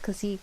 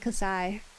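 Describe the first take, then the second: First: It is said the Japanese katakana way. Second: It is said the English Greek-letter way. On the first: "when they write the katakana for pronunciation, they write this" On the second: "if you want to use the Greek convention in, in English"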